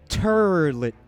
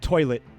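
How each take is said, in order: First: The vowel sounds like 'ur' with an R. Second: It is said with a plain standard vowel.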